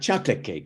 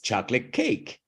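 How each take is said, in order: First: The word chocolate is stressed and higher. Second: The word cake is stressed and higher. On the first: The speaker calls it wrong. "it's not chocolate cake" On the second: The speaker calls it right. "Cake is higher"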